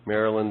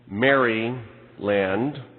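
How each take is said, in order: First: It is said as the usual single word. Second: It is said as 'Mary' plus 'land'.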